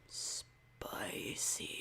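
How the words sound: It is said in a very deep voice.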